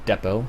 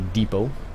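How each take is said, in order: First: The word is pronounced the British way. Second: The word is pronounced the Canadian way. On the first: "I think if the Brits would call it depot" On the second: "I think us Canadians would say depot"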